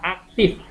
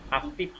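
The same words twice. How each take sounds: First: The word ends with an f sound. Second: The word ends with a p sound. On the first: The speaker calls it right. "Ini yang baku" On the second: The speaker calls it wrong. "Susah kan ngomong F, susah ngomong F. Biasanya aktif"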